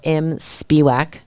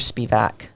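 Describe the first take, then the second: First: The middle consonant is a W sound. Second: The middle consonant is a V sound. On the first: It follows the written spelling of the email. "I say it like that because it's a W" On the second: It is how the person's name is said. "you're Spivak"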